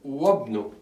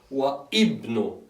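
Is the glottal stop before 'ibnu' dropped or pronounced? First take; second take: dropped; pronounced. First: The words run together with no glottal stop. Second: A glottal stop separates the two words. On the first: The speaker calls it right. "If you can hear it, Wabnu" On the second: The speaker calls it wrong. "I'm not saying anymore Wa Ibnu, because that's wrong"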